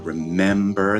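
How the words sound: The middle vowel sounds like the 'e' in dress. "instead of using the vowel sounding dress to say pen or men or remember"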